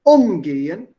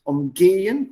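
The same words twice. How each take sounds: First: Umgehen loud, stressed on gehen, rising; Umgehen, stronger and rising; stressed and louder. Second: Umgehen, rising, stress on gehen; stress second syllable. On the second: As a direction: lift and weight the gehen of Umgehen. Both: Shown as a demonstration. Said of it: "Stress is on the second syllable".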